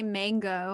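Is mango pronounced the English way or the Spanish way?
English. It is said with an English pronunciation. This is how most people say it. "so I don't say mango"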